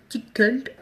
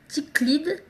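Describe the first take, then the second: First: French-accented second attempt at English "tickled"; retry "tickled" in unsure French-accented English; tentative English "tickled" from a French speaker; bad English accent. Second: French-accented attempt at English "Ticklid"; unsure English pronunciation of "Ticklid" by a French speaker; bad English accent. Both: Real, not acted. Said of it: "désolée pour mon accent pourri".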